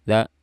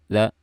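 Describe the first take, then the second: Both takes have the same delivery.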